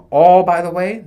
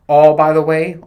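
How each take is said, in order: First: Louder still, higher and rising; insistent loud repeat; louder emphatic repeat. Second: Loud, louder; raised voice cutting in; loud emphatic aside. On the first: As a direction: push it up higher. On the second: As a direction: blurt it out loudly. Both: Real, not acted. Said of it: "repeated louder".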